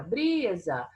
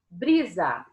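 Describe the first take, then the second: First: "Brisa" with BRI drawn out and more intonation; stress on BRI. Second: Said in the usual way. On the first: Shown as a demonstration. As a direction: call out "Brisa", lingering on the first syllable, BRI. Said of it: "Aqui eu falei com mais entonação, aqui eu falei mais tempo, foi o bri". ("Brisa" com o BRI alongado e mais entonação) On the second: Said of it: "Aqui eu falei com mais entonação".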